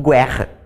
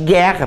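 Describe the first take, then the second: First: The u after the g is pronounced. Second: The u after the g is silent. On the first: The speaker calls it wrong. "que eu não digo guerra" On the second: The speaker calls it right. "Ele só vai formar um dígrafo quando o U não for pronunciado"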